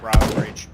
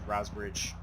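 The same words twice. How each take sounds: First: Loud urgent location call; loud callout. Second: Softer, calmer repeat; quiet repeat. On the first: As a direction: shout the location to the team. Calls enemy location. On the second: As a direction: repeat it quietly, under the breath. Repeats location. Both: Real, not acted.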